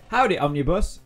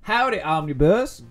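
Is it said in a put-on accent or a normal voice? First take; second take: normal; accent. First: It is said in the speaker's normal voice. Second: It is said in a put-on accent.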